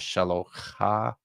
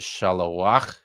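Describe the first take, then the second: First: The word ends on a vowel sound. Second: The word ends on the consonant sound. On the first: "as opposed to open the syllable" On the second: "using the consonant to close the syllable"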